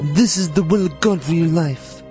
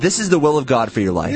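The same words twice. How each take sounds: First: It is said in a put-on Godfather voice. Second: It is said in the speaker's ordinary voice.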